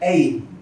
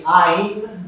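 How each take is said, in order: First: The vowel sounds like 'ay'. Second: The vowel sounds like 'eye'. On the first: This is how other regions pronounce it. "Some parts they'll say Ain / Ейн" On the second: This is how some regions pronounce it. "some parts of India they'll say Ain / Айн"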